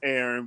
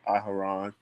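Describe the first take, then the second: First: The name is said without a middle h sound. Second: The name is said with a middle h sound. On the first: This is the usual English form of the name. "it's Aaron" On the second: This is the Hebrew form of the name. "in the Hebrew it's Aharon"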